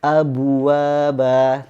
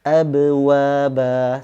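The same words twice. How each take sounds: First: Abwaba said very slowly with the b sounding like bu; wrong take, sounds like abu; qalqalah mixed with u. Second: Abwaba very slowly and louder with a clean b bounce; right take, no rounding; correct qalqalah. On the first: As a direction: abwaba with lips rounded on the b bounce. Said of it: "tetapi dibaca". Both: Shown as a demonstration.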